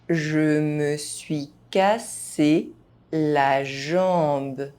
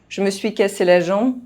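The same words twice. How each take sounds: First: The phrase is spoken at normal speed. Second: The phrase is spoken fast, sounds reduced. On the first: This is the pace learners should use. "at a normal pace" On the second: This is how native speakers say it. "fast, as a native speaker would do"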